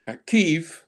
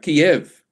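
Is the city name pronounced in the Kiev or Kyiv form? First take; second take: Kyiv; Kiev. First: The name is said in the Ukrainian-based form. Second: The name is said in the Russian-based form. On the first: It reflects the local national identity. The speaker calls it right. "we want our Ukrainian pronunciation" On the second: It reflects the former imposed identity. The speaker calls it wrong. "we don't want the Russian pronunciation"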